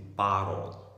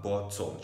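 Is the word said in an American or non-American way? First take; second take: American; non-American. First: It is said with an American pronunciation. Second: It is said without an American pronunciation. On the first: The speaker calls it right. "je dis bottle" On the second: The speaker calls it wrong. "je ne dis pas bottle"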